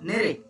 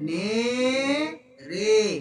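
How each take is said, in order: First: It is said quietly but at normal speed. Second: It is said slowly with drawn-out syllables. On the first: The speaker calls it wrong. "ও ভলিউমটা কমাচ্ছে কিন্তু উচ্চারণটা slow করছে না।" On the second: The speaker calls it right. "এটা হচ্ছে slow উচ্চারণ।"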